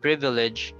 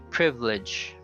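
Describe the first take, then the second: First: The word is said with three syllables. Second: The word is said with two syllables. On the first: "Instead of saying privilege" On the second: "you say privilege"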